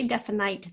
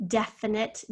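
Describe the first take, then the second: First: "definite" with the last syllable rhyming with "night"; deliberate mispronunciation. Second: Said in the usual way. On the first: Shown as a demonstration. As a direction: sound the silent E in "definite", ending it like "nite". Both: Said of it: "So we don't say definite".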